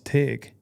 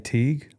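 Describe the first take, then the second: First: The vowel is short, as in 'tick'. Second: The vowel is long, as in 'tea'. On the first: This is how the locals say the town's name. "they say, no, it's Tig" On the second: This is how an outsider says the town's name. "So I say Teague"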